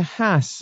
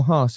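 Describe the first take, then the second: First: "Haas" rhyming with "mass"; short-vowel pronunciation. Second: "Haas" with the vowel of "father"; long-vowel pronunciation. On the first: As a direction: say "Haas" as "hass", short flat A. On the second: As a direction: say "Haas" as "hahss", long open A. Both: Shown as a demonstration. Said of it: "however way you want to pr-, pronounce it".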